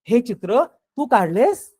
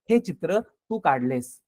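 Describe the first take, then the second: First: It is said with amazed, surprised feeling. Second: It is said flatly as a plain statement. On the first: It is hard to believe the listener made such a picture. "म्हणजे इथं आश्चर्य" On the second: The listener made the picture. "मला साधं विधान करायचंय"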